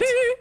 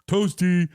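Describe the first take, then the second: First: It is said in a high falsetto. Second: It is said in a normal low voice.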